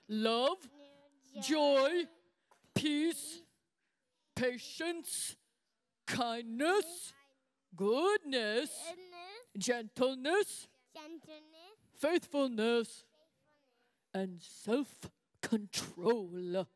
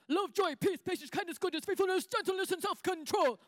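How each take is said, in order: First: The list is said at a normal pace. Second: The list is said very fast.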